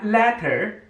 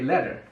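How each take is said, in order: First: The middle consonant is a clear T. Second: The middle consonant sounds like a D.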